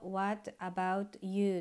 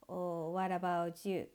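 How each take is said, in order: First: Said slowly with each word separate. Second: Said quickly with the t and y joined. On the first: "ゆっくりカタカナで読むと" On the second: "早く言うと"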